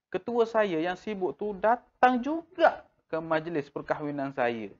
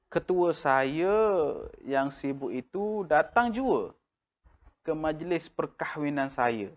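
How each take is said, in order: First: Juga pushed with the whole line pitched high; stress on juga. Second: Said in the usual way. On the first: Shown as a demonstration. Teacher showing emphasis in casual speech. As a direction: lean on juga in a lively spoken way. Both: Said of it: "Cara kita lafazkan".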